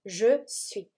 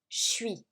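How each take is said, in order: First: Both words are pronounced fully and clearly. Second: It is squeezed into one short clipped syllable. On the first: "we use je suis, which means I am" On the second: "the second option, which is even more uh, common"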